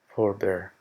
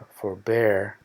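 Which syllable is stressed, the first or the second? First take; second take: first; second. First: The stress is on the first syllable. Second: The stress is on the second syllable. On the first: It is used as a noun. "Con el acento en la primera es el sustantivo" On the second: It is used as a verb. "el acento al final es verbo"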